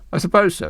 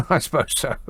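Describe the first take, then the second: First: Said in the usual way. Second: Real chuckle through the words; laughing concession. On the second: Real, not acted. Radio host conceding [name] sang in English accent, laughing.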